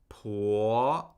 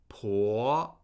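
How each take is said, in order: Both takes have the same delivery.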